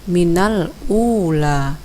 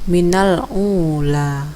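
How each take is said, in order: First: Ula starts with a plain, clean vowel. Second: Ula starts with a throaty, tight consonant. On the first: The speaker calls it right. "Harusnya minal ula, karena ini bukanlah huruf ain" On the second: The speaker calls it wrong. "Bacaan yang keliru"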